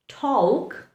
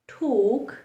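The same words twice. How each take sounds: First: The L sound is pronounced in the word. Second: The L sound is silent in the word. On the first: The speaker calls it wrong. "if you had to pronounce the letter L? ... They sound horrible" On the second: The speaker calls it right. "the correct pronunciation is"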